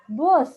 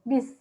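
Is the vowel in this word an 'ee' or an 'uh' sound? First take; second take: uh; ee. First: The vowel sounds like the 'uh' in 'bus'. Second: The vowel sounds like a short 'ee'. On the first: This is how it is said in English. "Jadi bus itu dibacanya tuh bus" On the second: This is how Indonesians say it. "Kita kan nyebutnya bis"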